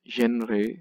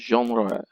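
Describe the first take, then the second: First: The word is said with an anglicized pronunciation. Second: The word is said with a French pronunciation. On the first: The speaker calls it wrong. "That is not the correct pronunciation" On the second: The speaker calls it right. "say it like the French do"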